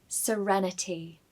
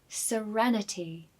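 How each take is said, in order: No difference in how they are said.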